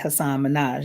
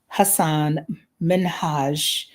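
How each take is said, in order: First: The name is said in the speaker's usual pronunciation. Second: The name is said imitating its owner's pronunciation. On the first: It is the speaker's preferred habitual form. The speaker calls it wrong. "That's how I say it" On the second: It follows how the name's owner says it. The speaker calls it right. "so I try to say it the way he says it"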